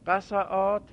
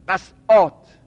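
First: The middle consonant is followed by a vowel. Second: The middle consonant has no vowel after it. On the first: The speaker calls it right. "نه باید بگیم قصعات" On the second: The speaker calls it wrong. "نباید بگیم قصعات، ساده عین الفعل ساکن باشه"

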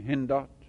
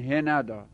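First: The n is followed by no vowel. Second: The n is followed by an a vowel. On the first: "میتونیم به سکون بخونیم بگیم هندات" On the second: "میتونیم فتحه بدیم بگیم هنداد"

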